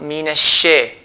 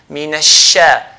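First: The vowel after sh glides toward ay. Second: The vowel after sh is a plain open a. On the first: The speaker calls it wrong. "and not mina shay. Shay is wrong" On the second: The speaker calls it right. "it's mina sha"

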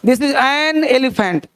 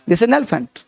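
First: The words 'an' and 'elephant' are said separately. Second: The n sound runs straight into 'elephant'. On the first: The speaker calls it wrong. "अलग हो गया" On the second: The speaker calls it right. "और एन को shift कर दो नेलिफेंट"

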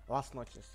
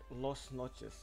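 First: The first word sounds like 'las'. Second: The first word sounds like 'lost'. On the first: The speaker calls it right. "finally I pronounced that right" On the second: The speaker calls it wrong. "I was always like saying like Lost Noches"

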